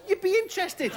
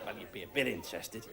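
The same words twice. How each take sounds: First: Very high, squeaky exclamation; exclaimed punchline. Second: Low, soft, quick concession; understated aside. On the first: Comic imagining a real giant turtle, exclaimed. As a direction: shoot the pitch right up in mock outrage. Emphatic punchline, then played down. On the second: Comic conceding after the giant turtle line, understated. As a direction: drop right down and play it down. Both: Acted.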